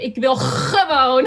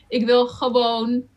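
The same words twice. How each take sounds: First: The G sound is heavy and strongly scraped. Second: The G sound is soft and only lightly scraped. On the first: The speaker calls it wrong. "I wouldn't overdo it. So I prefer not to hear" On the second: The speaker calls it right. "It's very light"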